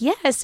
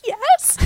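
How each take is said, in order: First: Higher, lightly imitated group approval; a mild cheer of agreement; approving yes. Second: Very high, louder squealed yes; hammed-up ecstatic yes; mock overexcitement. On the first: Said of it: "they're like". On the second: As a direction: squeal it like a thrilled winner. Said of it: "He's, like, so excited".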